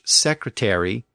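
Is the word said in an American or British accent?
American. It is said in an American accent. "American English"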